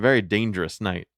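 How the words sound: It is said in a natural speaking voice. "You didn't do the voice"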